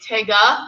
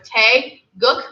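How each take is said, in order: First: It is run together like one word. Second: It is said as two separate parts. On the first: The speaker calls it wrong. "A lot of people say Taega, like take a" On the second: The speaker calls it right.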